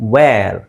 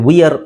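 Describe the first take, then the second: First: It is one syllable, like vair. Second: It is two syllables, like vee-yer. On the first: The speaker calls it right. "W ಹಾಕಿರೋದಕ್ಕೆ ನಾವು ಅದನ್ನು ವೇರ್ ಅಂತ ಹೇಳ್ತೀವಿ" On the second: The speaker calls it wrong. "ವಿಯರ್ ಅಲ್ಲ"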